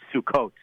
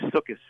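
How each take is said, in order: First: It is said in a non-Ashkenazic Hebrew pronunciation. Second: It is said in an Ashkenazic Hebrew pronunciation.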